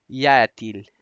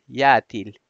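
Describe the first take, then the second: No difference in how they are said.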